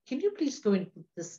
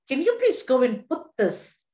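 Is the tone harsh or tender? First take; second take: tender; harsh. First: The voice sounds tender and gentle. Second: The voice sounds harsh and commanding. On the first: The request is a kind, caring ask. The speaker calls it right. "is tenderness" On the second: The request is a stern demand. The speaker calls it wrong. "apart from harshness"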